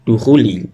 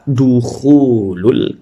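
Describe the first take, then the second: First: The word ends with an -i sound. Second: The word ends with an -ul sound. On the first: The speaker calls it wrong. "bukan apa namanya" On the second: The speaker calls it right. "seharusnya di situ dibaca dukhulul kanisati"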